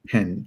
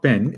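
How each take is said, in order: First: The p is said with a puff of air. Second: The p is said without a puff of air. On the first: The speaker calls it right. "It is p. Pen" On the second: The speaker calls it wrong. "it's not pen"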